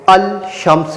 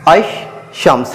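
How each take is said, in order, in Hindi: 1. shams से पहले L की ध्वनि साफ़ उच्चारित होती है। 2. L साइलेंट है और sh दोहरा होता है। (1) "तो मैं इसको अल शम्स नहीं पढ़ूंगा।" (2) "लाम को साइलेंट किया जाता है"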